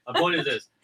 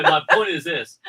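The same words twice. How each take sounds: First: Said in the usual way. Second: Laughing. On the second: Real, not acted.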